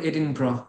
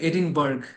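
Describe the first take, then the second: First: The name ends with a short 'bra' sound. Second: The name ends with a full 'burg' sound. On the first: The speaker calls it right. "উচ্চারণটা ওরা করে এডিনব্রা" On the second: The speaker calls it wrong. "উচ্চারণটা দেখে মনে হবে এডিনবার্গ"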